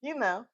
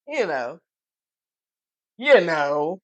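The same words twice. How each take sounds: First: Said in the usual way. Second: Low, loose street "You know". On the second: Shown as a demonstration.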